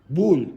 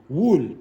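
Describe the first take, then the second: No difference in how they are said.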